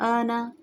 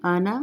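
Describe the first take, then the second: First: आना said as a plain Hindi word, wrong; wrong reading. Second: अना with a short clean first vowel; correct short ana. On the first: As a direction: read आना the incorrect way, no Arabic vowels. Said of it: "ये आना नहीं पढ़ेंगे". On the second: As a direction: say अना short, Arabic style. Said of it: "ये लफ्ज़ आना है". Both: Shown as a demonstration.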